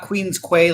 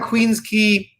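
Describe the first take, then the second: First: The name is said the common popular way. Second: The name is said the less common way. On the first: The speaker calls it wrong. "like most people pronounce it" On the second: The speaker calls it right. "right on Queens Quay"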